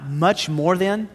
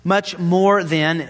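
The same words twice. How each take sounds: First: Slow, with a rising question on than; mock astonishment at Paul's words; puzzled slow Much more than with a rise; incredulous question. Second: Much more than read slowly, leaning on more; slow deliberate Much more than; slow emphatic quote. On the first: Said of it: "Stop. Wait a minute, Paul". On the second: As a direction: savor the phrase word by word. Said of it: "what do you mean?". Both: Shown as a demonstration.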